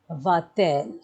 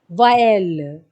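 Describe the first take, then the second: First: A t sound links the verb and pronoun. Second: The vowels run together with no t sound. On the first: The speaker calls it right. "we are adding a T in between so that we have a better pronunciation" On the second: The speaker calls it wrong. "If we don't add it, it will sound like this"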